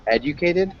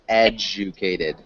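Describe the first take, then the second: First: The middle consonant is a plain d sound. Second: The middle consonant is a j sound. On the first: The speaker calls it wrong. "instead of saying e, ed, educated" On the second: The speaker calls it right. "it's educated. So it's got like a j sound"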